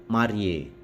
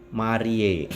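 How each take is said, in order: The two takes are said the same way.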